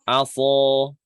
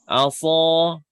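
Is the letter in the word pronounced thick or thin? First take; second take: thick; thick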